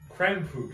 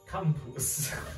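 First: It is said in his normal accent. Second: It is said in a German accent.

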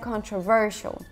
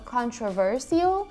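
First: It is said with a non-American pronunciation. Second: It is said with an American pronunciation. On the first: "все остальные ребята сказали controversial" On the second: "американец произнес это слово как controversial"

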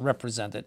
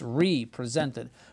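First: It begins with a short 'rep' sound. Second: It begins with a separate 'ree' before 'presented'. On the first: The speaker calls it wrong. "It's not represented" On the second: The speaker calls it right. "It's represented, presented again"

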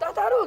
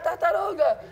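First: It is said with an imitated Chinese-like intonation. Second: It is said with plain Brazilian Portuguese intonation. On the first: The speaker calls it right. "tô tentando fazer a entonação" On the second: The speaker calls it wrong. "Não é assim"

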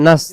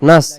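First: The vowel is cut short. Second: The vowel is cut short.

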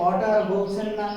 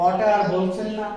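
The two takes are said the same way.

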